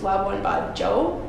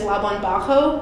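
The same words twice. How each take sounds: First: The j in Bajo sounds like a hard j. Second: The j in Bajo sounds like a Spanish h. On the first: The speaker calls it right. "it's a hard J" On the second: The speaker calls it wrong. "I had pr- been pronouncing it as Labuan Bajo because I spoke Spanish growing up"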